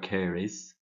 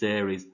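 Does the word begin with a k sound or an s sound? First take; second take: s; k. First: The word begins with an s sound. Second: The word begins with a k sound. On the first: "soft C sound"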